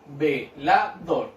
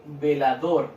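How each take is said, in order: First: "velador" very slowly, as ve, la, dor; split into syllables. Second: Said in the usual way. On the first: Shown as a demonstration. Teacher separates the word for children, syllable by syllable. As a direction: break "velador" into three spaced beats. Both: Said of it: "Separo en sílaba".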